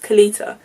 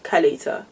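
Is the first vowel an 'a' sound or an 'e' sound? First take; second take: e sound; a sound. First: The first vowel is a spread, smiling 'e' sound. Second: The first vowel is an open 'a' sound. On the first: The speaker calls it right. "you have to say it with a smile, so it's Kalita" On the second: The speaker calls it wrong. "not Kalita"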